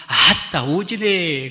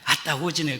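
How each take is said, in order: First: Loud, delighted Jeolla-dialect exclamation from the mother. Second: Jeolla dialect mother. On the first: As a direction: burst out "아따" like a proud Jeolla mother. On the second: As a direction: say "아따, 오지네" gently as a doting Jeolla mother. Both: Retold or imitated. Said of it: "전라도 말로 그대로 우리 어머니 흉내를 내볼게요".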